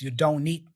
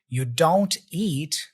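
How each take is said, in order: First: The T drops and the N joins 'eat'. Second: The words are said separately, with a clear T.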